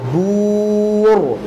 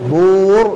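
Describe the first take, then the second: First: The vowel is a clear, rounded u sound. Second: The vowel drifts toward an o sound. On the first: The speaker calls it right. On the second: The speaker calls it wrong.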